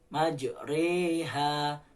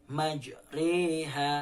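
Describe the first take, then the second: Both takes have the same delivery.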